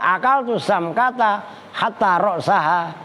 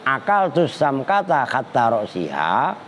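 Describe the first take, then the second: First: The last word has an a vowel after s. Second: The last word has an i vowel after s. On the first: The word hatta acts as a conjunction. "roksaha nasob" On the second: The word hatta acts as a preposition. "roksi sinnya dibaca si kan jer"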